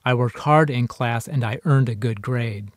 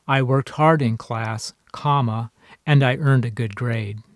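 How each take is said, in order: First: Said in the usual way. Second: Slow read, saying "comma" aloud before "and"; with spoken comma. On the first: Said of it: "there's something missing here". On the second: Shown as a demonstration. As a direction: pause after "class," and say "comma". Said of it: "should be placed just before the word "and".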